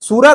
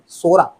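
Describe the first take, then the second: First: The first vowel is a long 'oo' sound. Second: The first vowel is an 'o' sound. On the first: The speaker calls it wrong. "सूरा नहीं" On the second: The speaker calls it right.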